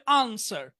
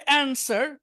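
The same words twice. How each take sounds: First: আনসার with British long "ah"; British back vowel opening আনসার; British pronunciation. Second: অ্যানসার with American "a" as in "cat"; American front vowel opening অ্যানসার; American pronunciation. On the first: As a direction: say আনসার the British way, "AHN-sar". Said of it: "আর British হবে আনসার". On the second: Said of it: "American উচ্চারণ হবে অ্যানসার". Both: Shown as a demonstration.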